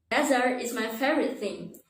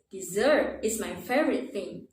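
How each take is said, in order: First: DESERT stressed on the first syllable, DEZ-ert; wrong stress. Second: DESSERT as short di, then long stressed ZERT; stress on second syllable. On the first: Teacher showing a student's mistake, Desert stressed up front. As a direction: say DEZ-ert where dessert is meant. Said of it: "I think what you want to say is". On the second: Teacher correcting the mistake, Dessert stressed on second syllable. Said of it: "with the stress on the second". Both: Shown as a demonstration.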